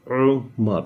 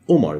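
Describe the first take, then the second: First: It begins with a sound squeezed in the throat. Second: It begins with a plain English O vowel. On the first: The speaker calls it right. "The actual way to pronounce it is Umar. It's coming out from here" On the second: The speaker calls it wrong. "everybody says Umar, with like with an O in English"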